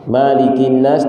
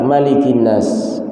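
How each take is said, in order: First: The vowel after the first consonant is long. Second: The vowel after the first consonant is short.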